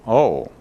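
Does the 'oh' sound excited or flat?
flat. It is said flatly, without enthusiasm. "Seems lacking a, somewhat in dramatic enthusiasm"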